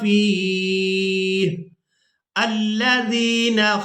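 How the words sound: There is a stop after the first word. "अब ये तो है वक़फ़ का तरीका।"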